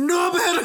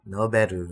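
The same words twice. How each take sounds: First: It is said loudly with dramatic gusto. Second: It is said plainly, without extra energy.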